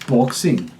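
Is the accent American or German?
German. Said with a German-style rounded O vowel. "German speakers pronounce the short O with European flavor"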